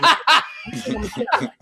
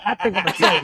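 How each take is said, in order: First: I'ma squeaked very high through laughter; high-pitched giggling I think I'ma tell him; squeaky laughing repeat. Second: Said in the usual way. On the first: Shown as a demonstration.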